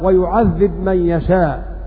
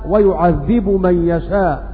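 First: The verb ends with no final vowel. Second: The verb ends with a final u vowel. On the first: "يقرؤون بالجزم" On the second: "قرأ بالرفع"

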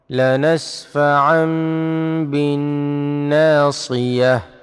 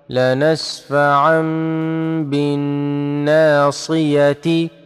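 First: The last word ends with an -h sound. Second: The last word ends with a -tin sound. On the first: The reciter stops on this word. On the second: The phrase is read in continuous recitation.

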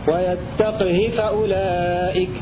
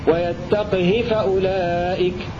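Both takes have the same delivery.

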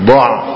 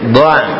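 First: The ain sound is thick and heavy. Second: The ain sound is thin and light. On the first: The speaker calls it wrong. "jangan dha'" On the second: The speaker calls it right. "tipiskan ainnya karena ain adalah huruf istifal"

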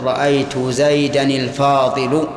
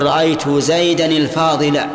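First: The last word ends without an a vowel. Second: The last word ends with an a vowel. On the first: The speaker calls it wrong. "ولا يجوز أن تقول" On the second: The speaker calls it right. "إذا كان المنعوت منصوبا صار النعت منصوبا"

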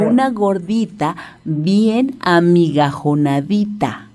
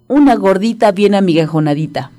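First: The phrase is said slowly and carefully. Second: The phrase is said at a normal, quicker pace.

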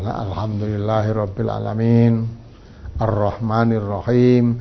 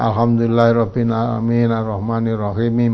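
First: It is recited at a moderate, even pace. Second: It is recited fast with words run together. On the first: The speaker calls it right. "itu kan kalau dibaca begitu sudah wajar itu" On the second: The speaker calls it wrong. "disambung terus begitu, mungkin terlalu kecepatan ya"

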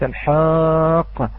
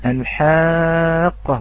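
First: The ha sound is heavy and thick. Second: The ha sound is light and thin. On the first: The speaker calls it wrong. "وليس الحاقة" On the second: The speaker calls it right. "نعم الحاقة"

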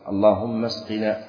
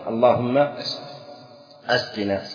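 First: The hamza is elided, joining the two words smoothly. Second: The hamza is pronounced with a glottal stop. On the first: "همزة وصل" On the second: "فإذا قلنا همزة قطع"

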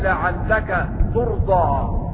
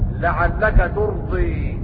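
First: The final vowel is a plain open a. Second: The final vowel is tilted toward e.

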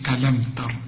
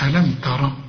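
First: The final r stops with no vowel. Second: The final r is followed by a vowel. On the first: The speaker calls it right. "يبقى هتسكن الراء" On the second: The speaker calls it wrong. "شوف مش ألم تر"

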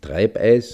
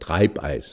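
First: The EI sound has a regional, non-standard quality. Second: The EI sound has a standard German quality. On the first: The speaker calls it wrong. "nicht Treibeis" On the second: The speaker calls it right. "dass man dann das EI anders ausspricht, sondern Treibeis"

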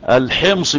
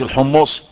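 First: The word is said with an 'i' vowel. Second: The word is said with 'u' vowels. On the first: The name refers to the city of Homs. The speaker calls it right. "احمد بن علي الايه؟ الحمصي" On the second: The name refers to a seller of chickpeas. The speaker calls it wrong. "مش الحمصي"

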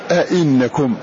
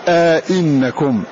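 First: The two glottal stops meet with no vowel between. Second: A long a sound separates the two glottal stops. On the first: "وعدمه" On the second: "يحقق مع الإدخال"

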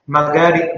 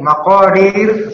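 First: The middle consonant is a hard g sound. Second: The middle consonant is a deep throaty q sound.

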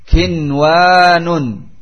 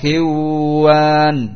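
First: The n is pronounced clearly before the w. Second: The n is merged into the following w. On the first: The speaker calls it right. "wajib dibaca izhar" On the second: The speaker calls it wrong. "tidak dibaca idgham, tidak dibaca kiwan"

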